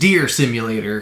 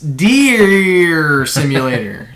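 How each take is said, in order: First: The vowel in deer is short and plain. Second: The vowel in deer is stretched out long. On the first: The speaker calls it wrong. "it's not just Deer Simulator" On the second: The speaker calls it right. "there's several E's in there"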